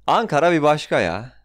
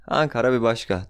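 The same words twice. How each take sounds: First: Excited. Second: Said in the usual way. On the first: Real, not acted. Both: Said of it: "Ankara sevgimi kusuyorum".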